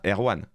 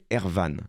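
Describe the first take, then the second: First: The consonant after the r sounds like w. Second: The consonant after the r sounds like v. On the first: The speaker calls it wrong. "Son vrai prénom, c'est pas Erwan" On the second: The speaker calls it right. "ça s'écrit pareil, mais ça se prononce Ervan"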